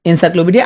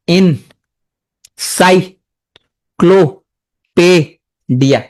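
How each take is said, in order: First: Said in the usual way. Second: "encyclopedia" very slowly, long pause between syllables; each syllable of "encyclopedia" standing alone; broken into syllables. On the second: Shown as a demonstration. Teacher breaking the word up for students, syllable by syllable. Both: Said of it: "যদি ভাঙো".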